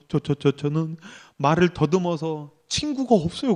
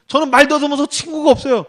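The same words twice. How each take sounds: First: Low, soft stammer, retelling a sobbing contestant; imitated tearful stutter. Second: Higher-pitched, fluent mocking retelling; mocking self-pity quote. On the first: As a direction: stutter the first word, mock-pitiful and subdued. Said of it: "막 울면서 말을 막 더듬". (울먹이며 말 더듬는 흉내) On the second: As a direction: throw the pitiful excuse back without the stutter. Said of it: "그래서 연민이나 구하고 있고". (연민 구하는 말을 비꼬듯 흉내)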